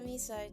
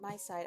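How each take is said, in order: First: The first syllable sounds like 'me'. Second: The first syllable sounds like 'my'. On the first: The speaker calls it wrong. "I thought it was me side" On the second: The speaker calls it right. "my side's probably the right pronunciation"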